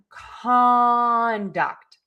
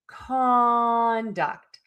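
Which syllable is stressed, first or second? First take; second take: first; first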